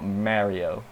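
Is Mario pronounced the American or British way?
British. It is pronounced with a British vowel. The speaker calls it wrong. "not Mario because otherwise people will be mad"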